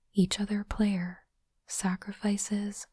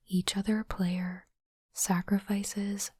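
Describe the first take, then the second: No difference in how they are said.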